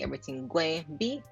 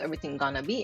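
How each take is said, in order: First: It uses the Jamaican form gwen. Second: It uses the American form gonna.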